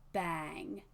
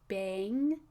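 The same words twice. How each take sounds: First: The vowel is flat like the vowel in 'cat'. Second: The vowel glides like the vowel in 'bane'. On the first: "more of the ah sound, as in cat" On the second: "use more of the A diphthong"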